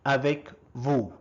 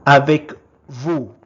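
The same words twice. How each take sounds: First: Said in the usual way. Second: First take, projected clearly for the class; loud model word. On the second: Shown as a demonstration. Teacher modelling a French word for learners, loud and clear. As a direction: call out the French word loudly. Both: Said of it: "is called".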